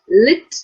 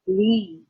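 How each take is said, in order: First: The final t sound is pronounced. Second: The word ends on the vowel, no t. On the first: The speaker calls it wrong. "it's not lit" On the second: The speaker calls it right. "We do not pronounce the last letter"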